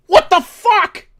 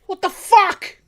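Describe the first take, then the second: First: Slow, higher, loud yell of disbelief; outraged yell. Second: Higher, loud yell of disbelief; outraged yell. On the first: Host outraged at the election result, slow outraged yell. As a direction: drag it out in furious disbelief. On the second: Host repeating his outrage to listeners, loud outraged yell. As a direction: shout it again at full anger. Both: Real, not acted.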